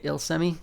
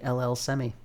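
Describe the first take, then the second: First: The start is said as one word, "Il". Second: The start is said as two letters, "L L". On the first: The speaker calls it wrong. "I had been pronouncing it Il Semi this whole time" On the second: The speaker calls it right. "it's actually L L Semi"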